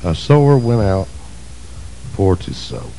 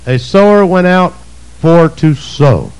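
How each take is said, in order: First: Quiet reflective reading. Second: Slow emphatic reading. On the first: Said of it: "What's that mean?". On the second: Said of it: "Is that what it says?". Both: Shown as a demonstration.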